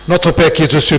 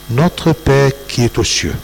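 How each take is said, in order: First: The phrase is said quickly, rushed through. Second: The phrase is said slowly and deliberately. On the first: It is said lightly and nothing is remembered. The speaker calls it wrong. "quand on prie rapidement" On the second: It is felt as very profound. The speaker calls it right. "si vous la dites lentement"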